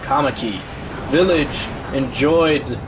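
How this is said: There is a break between Kamaki and village. The speaker calls it wrong.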